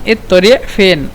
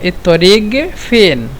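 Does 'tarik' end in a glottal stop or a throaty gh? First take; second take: glottal stop; throaty gh. First: The qaf is said as a glottal stop. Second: The qaf is said as a throaty gh. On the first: "تكلمنا قاف بالهمزة" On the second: "وبالغين"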